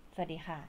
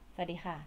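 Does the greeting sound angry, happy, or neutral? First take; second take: angry; angry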